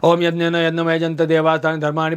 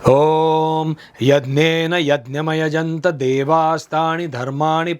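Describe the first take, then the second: First: It is recited quickly and indistinctly. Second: It is recited slowly and clearly. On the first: The words are rushed just to finish the ritual. The speaker calls it wrong. "फट फट फट फट फट फट कुछ बोल देते हैं" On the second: The words carry and strengthen the worshipper's feeling. The speaker calls it right. "Clear, स्पष्ट होना चाहिए।"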